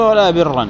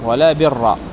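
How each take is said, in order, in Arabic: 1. الكلمة الأخيرة تنتهي بـ «-ًا» مع التنوين. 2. الكلمة الأخيرة تنتهي بفتحة عادية «-َا»، بلا تنوين. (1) "فيجوز نصب برا عطفا على اسم الأولى المنصوب" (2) "ويجوز بناؤه على الفتح"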